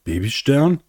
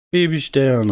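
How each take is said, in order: First: Hoch und steigend, überrascht; frag, als könntest du es kaum glauben; ungläubige Frage. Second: Hoher Ruf mit fallendem Ende; Mama Sonne ruft. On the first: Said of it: "konnte es nicht glauben". (ungläubig staunend) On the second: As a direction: ruf dein Kind beim Wiedersehen. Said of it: "rief Mama Sonne". (mütterlich rufend) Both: A narrator's reading.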